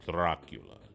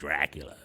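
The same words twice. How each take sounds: First: The name is said in an exaggerated foreign accent. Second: The name is said in an ordinary accent. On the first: The speaker calls it right. "You got to say it with the accent" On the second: The speaker calls it wrong. "It sounds better than"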